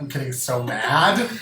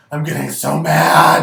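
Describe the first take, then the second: First: Said in the usual way. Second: Louder, building anger; louder angry. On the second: Shown as a demonstration. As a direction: say it again much louder.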